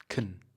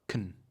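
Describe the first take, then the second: First: The vowel is reduced and the word is short. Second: The vowel is reduced and the word is short.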